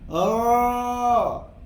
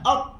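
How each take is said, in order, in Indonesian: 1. R dilepas terlalu bebas dan longgar. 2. R dihentikan dan ditahan. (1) "Contoh terlepas macam ni" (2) "Ataupun tertahan"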